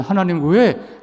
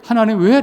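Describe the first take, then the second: First: Said in the usual way. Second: Higher, louder protesting cry; defiant challenge. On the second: Retold or imitated. Pastor voicing Job defying God, louder and higher. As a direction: push back at God, raising the voice. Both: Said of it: "라고 대들었지만".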